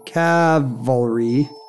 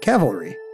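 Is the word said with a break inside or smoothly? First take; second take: break; smooth. First: The word has a pause inside it. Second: The word flows without any pause. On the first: The speaker calls it wrong. "doing the pause" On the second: The speaker calls it right. "you weren't even doing the pause anymore"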